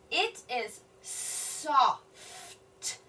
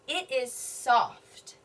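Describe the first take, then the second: First: Very slow, word by word; slow sounding out. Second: Said in the usual way. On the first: Shown as a demonstration. Teacher decoding a tough word, very slow. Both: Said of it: "That's a tough word".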